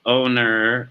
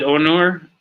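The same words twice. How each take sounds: First: Onur said as OH-ner; alternative pronunciation. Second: Onur said as OH-nor; unsure pronunciation. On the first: Streamer offering another guess at the name, Onur as OH-ner. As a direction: try Onur with a reduced "er" ending, OH-ner. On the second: Streamer guessing at a viewer's name, Onur as OH-nor. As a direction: try Onur with a full "or" ending, OH-nor. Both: Shown as a demonstration. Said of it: "don't know how to pronounce".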